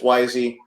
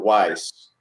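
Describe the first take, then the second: First: Two syllables, the first vowel like 'eye'. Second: One syllable, the vowel like 'eye'. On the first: This is the real name. The speaker calls it right. "it's it's Wisey" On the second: This is how the spelling looks. The speaker calls it wrong. "or Weiss"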